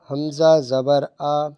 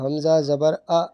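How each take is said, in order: First: The final vowel is short and smooth. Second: The final vowel is cut off with a jerk. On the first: The speaker calls it right. "ना झटका देंगे और ना खींच के पढ़ेंगे" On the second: The speaker calls it wrong. "ये झटका दे रहा हूँ मैं"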